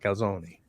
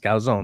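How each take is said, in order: First: The word ends with an extra final vowel sound. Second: The word ends without a final vowel sound. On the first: The speaker calls it wrong. "not calzone" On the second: The speaker calls it right. "stop pronouncing the e in calzone. It's calzone"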